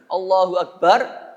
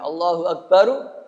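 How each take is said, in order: First: The last word ends on a bare r. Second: The last word ends with an added u vowel. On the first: "Roknya Anda sukun itu sunnah" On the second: "Anda dhamahkan boleh"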